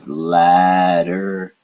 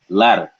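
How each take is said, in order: First: It is said slowly with a full D sound. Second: It is said fast with a quick tongue tap. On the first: "if you're trying to really pronounce out the word" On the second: "if you say it fast"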